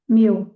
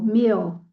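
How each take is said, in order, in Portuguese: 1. A vogal é curta, soando como 'mill'. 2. A vogal é um som de 'ee' mais longo. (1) "O meal é como se fosse o moinho" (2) "é o som de i, mas ele é um pouquinho mais longo"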